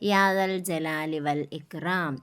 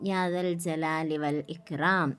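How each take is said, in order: The two takes are said the same way.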